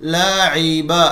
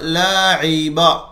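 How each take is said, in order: Both takes have the same delivery.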